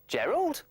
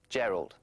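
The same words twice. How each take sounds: First: It is said with question intonation. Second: It is said flatly, like a statement. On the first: "with. ... it sounds like a question" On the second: "without the question mark"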